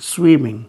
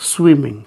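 No difference in how they are said.

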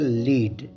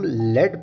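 First: The vowel is a long ee sound. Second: The vowel is a short eh sound. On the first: It means to guide or show the way. "अगला लफ्ज़ है लीड" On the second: It names a kind of metal. "जब हम लेड pronounce करते हैं तो इसकी meaning बदल जाती है"

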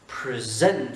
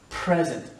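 First: The stress is on the second syllable. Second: The stress is on the first syllable. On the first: It is a verb. The speaker calls it wrong. "et pas present. Si on fait present, c'est un verbe" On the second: It is a noun meaning a gift. The speaker calls it right. "Accent tonique sur la première syllabe"

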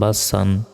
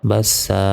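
First: The word ends with an n sound. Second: The word ends with a long vowel. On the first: The reading continues without stopping. "সিন দুই জবর সান" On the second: The reader stops on this word. "থামলে বাস সা"

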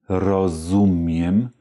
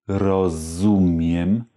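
Both takes have the same delivery.

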